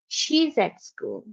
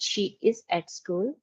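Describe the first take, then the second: First: The verb is contracted into one syllable. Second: The verb is said in full as two words. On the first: This is the natural spoken form. The speaker calls it right. "when we speak to sound natural, we say she's at school" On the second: This is the written form. The speaker calls it wrong. "I'm not saying she is at school. We do write it like that"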